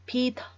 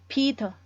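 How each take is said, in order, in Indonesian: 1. Bunyi t di tengah adalah t yang tegas. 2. Bunyi t di tengah adalah t yang tegas.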